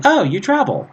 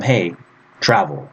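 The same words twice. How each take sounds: First: High-pitched, lilting mock remark that falls away; telling, not commanding. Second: Direct command. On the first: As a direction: say it as an observation, pitched well up. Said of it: "I'm telling my friend that he travels". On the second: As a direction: tell them to do it, pitched down at the end. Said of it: "I want to tell him". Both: Shown as a demonstration.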